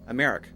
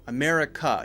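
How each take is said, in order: First: The word ends on the k sound. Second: The word ends with a clear uh vowel. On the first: The speaker calls it wrong. "Where's the uh?" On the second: The speaker calls it right. "make sure that uh sound is very clear at the end"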